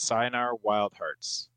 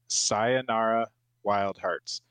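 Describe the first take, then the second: First: It is said at normal, quicker speed. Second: It is said more slowly and carefully.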